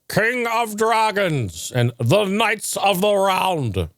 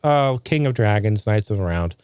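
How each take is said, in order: First: It is said in a grand, old-English put-on voice. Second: It is said in a plain, casual voice.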